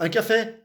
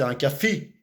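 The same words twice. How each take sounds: First: "café" ending on an open è, kafɛ, as a friendly offer; local pronunciation. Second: "café" ending on a closed é, kafe; standard pronunciation. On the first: (« café » prononcé avec un è ouvert, à la façon locale) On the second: (« café » corrigé avec un é fermé standard) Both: Shown as a demonstration. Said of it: "l'accent est pas dans le bon sens".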